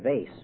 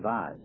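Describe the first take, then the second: First: The word is said the Minnesota way. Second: The word is said a non-Minnesota way. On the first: "in Minnesota now we say vase" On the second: "we don't say vase"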